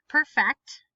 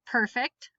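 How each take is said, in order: First: Perfect as per-FECT, louder and falling; stress on second syllable. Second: Perfect as PER-fect; stress on first syllable. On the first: Teacher giving both pronunciations, stress on second syllable. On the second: Teacher giving both pronunciations, stress on first syllable. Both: Shown as a demonstration. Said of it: "both of the different pronunciations".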